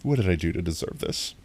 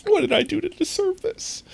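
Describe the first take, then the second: First: Said in the usual way. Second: Much higher, squeaky mock despair; high mock lament. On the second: Streamer repeating the question to chat, pitched high in mock despair. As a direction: ask it again in a tiny high wail. Same line said twice.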